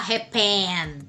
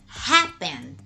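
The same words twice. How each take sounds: First: The stress is on the second syllable. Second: The stress is on the first syllable. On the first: The speaker calls it wrong. "Você não vai falar happen" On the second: The speaker calls it right. "você vai falar happen"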